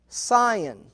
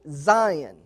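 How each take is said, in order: First: The word begins with an S sound. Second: The word begins with a Z sound. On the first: "the process of grafting is called a scion" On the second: "or you could pronounce it Zion"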